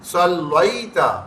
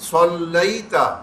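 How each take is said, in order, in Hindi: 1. बीच का स्वर धीरे से a से i की ओर सरकता है। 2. बीच का स्वर धीरे से a से i की ओर सरकता है।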